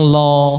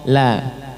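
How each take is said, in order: First: The sound is heavy, with a rounded vowel. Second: The sound is light, with an open vowel. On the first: The speaker calls it wrong. "Jangan lo" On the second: The speaker calls it right. "dibaca tipis"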